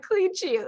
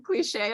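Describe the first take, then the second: First: "Cliche" said high and clipped as "clee-shee", imitating a Southern drawl. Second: "cliche" said the usual way, ending "-shay"; standard cliche. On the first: Teasing her friend's accent, "Cliche" as "clee-shee". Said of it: "You're like". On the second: Shown as a demonstration. Correcting her friend, "cliche" with the "-shay" ending. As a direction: say "cliche" properly as "clee-shay". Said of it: "Could you just enunciate".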